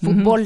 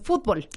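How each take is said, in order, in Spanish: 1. El acento está en la última sílaba. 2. El acento está en la primera sílaba. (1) "En México lo pronunciamos como se pronunciaría en inglés, ... es una palabra aguda que termina en L y no lleva acento" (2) "Pero en España, por ejemplo, dicen fútbol. Y lleva acento"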